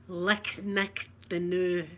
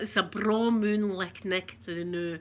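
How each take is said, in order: First: Slow explanation. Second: Slow, drawn-out broad Scots phrase. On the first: Explaining the Scots phrase to viewers, slow and careful. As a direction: spell out each word slowly. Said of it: "It's a braw moon, it's a good moon". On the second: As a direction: lay on the Scots slowly. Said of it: "People think we say that". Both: Shown as a demonstration.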